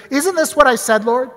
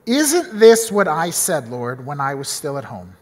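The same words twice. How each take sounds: First: Mild indignant protest, higher; a touch of an accusing prayer; complaining at God. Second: Said in the usual way. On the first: Retold or imitated. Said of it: "starts kinda shouting at God". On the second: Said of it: "we see Jonah say this".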